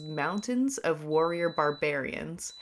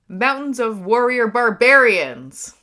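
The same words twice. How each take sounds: First: It is said in a plain, calm way. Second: It is said with extra force and energy.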